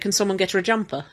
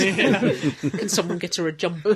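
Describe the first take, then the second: First: Stress falls on the usual parts of the words. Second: Stress falls on unexpected parts of the words. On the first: The speaker calls it right. "you or I would say" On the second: The speaker calls it wrong. "he emphasised the wrong parts of the words"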